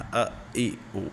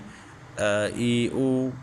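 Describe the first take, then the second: First: The vowels are cut off with a jolt. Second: The vowels are short and even, unforced. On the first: The speaker calls it wrong. "इनको झटका भी नहीं देना" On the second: The speaker calls it right. "इसको नॉर्मल हालत में पढ़ें"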